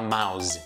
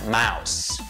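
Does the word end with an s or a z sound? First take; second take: z; s. First: The word ends with a buzzing z sound. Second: The word ends with a hissing s sound. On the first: The speaker calls it wrong. "nada de falar mouse" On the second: The speaker calls it right. "Tem som de S"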